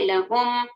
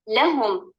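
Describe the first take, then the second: First: The stress is on the second syllable. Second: The stress is on the first syllable. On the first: The speaker calls it wrong. "लाम को छोड़कर हर्फ हा पर नंबर डालेंगे" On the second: The speaker calls it right. "कहाँ पर नगो डाला गया है? हर्फ अल्लाम पर"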